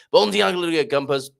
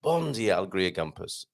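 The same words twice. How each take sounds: First: "Bon dia, Alegria Gumpers" rattled off high and loud; rushed greeting. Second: "Bon dia", then "Alegria Gumpers" dropping lower and softer; unhurried redo. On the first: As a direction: rush through the greeting in one go. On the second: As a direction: say the greeting properly, taking your time. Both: Real, not acted. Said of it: "Sorry, I rushed that".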